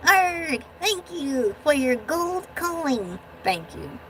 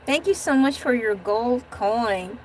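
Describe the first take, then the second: First: Slow growly pirate voice; little pirate guy. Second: Said in the usual way. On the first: Pretend. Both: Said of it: "this little guy can do that better".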